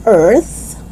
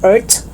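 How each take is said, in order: First: Tongue out to close "earth"; TH sound. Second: "earth" as "ert"; hard T closing "earth". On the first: Teacher correcting learners, "earth" with clear TH. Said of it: "but it's earth". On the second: Teacher showing learners the mistake, "earth" with final T. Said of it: "It's not earth". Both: Shown as a demonstration.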